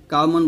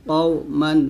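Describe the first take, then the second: First: "কাও মান" with a light k and open a; wrong thin qaf. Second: "কও মান" with a heavy k from far back; correct thick qaf. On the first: Teacher showing what to avoid, thin k. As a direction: say "কাও" thinly, like an ordinary kaf. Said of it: "কাও মান বলবেন না". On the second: Teacher showing the right way, heavy qaf. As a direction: round and thicken "কও" from the back of the mouth. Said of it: "বলতে হবে কও মান". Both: Shown as a demonstration.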